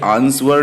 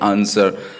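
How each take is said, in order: First: A w sound is pronounced in the middle. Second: No w sound is pronounced in the middle. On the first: The speaker calls it wrong. "ये आंसर नहीं लिख बोलते" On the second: The speaker calls it right. "हम इसको बोलते हैं आंसर"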